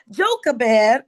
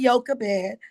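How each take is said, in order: First: "Jochebed" said with an English J, "JOH-kuh-bed"; J pronunciation. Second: "Jochebed" said with a Y, "YOH-kuh-bed"; Y pronunciation. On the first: Teacher naming Moses' mother, "Jochebed" with a hard English J. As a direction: begin "Jochebed" with a J sound. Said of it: "or some people may say Jochebed". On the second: Teacher offering an alternative, "Jochebed" said as "YOH-kuh-bed". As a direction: begin "Jochebed" with a Y sound. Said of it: "some people may say". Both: Shown as a demonstration.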